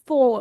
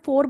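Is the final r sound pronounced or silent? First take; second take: silent; pronounced. First: The final r sound is silent. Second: The final r sound is pronounced. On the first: This is how it is normally said. "फो normally बोला जाता है, ओ आर silent होता है" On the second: This is how it is said in India. "India में फोर बोलते हैं"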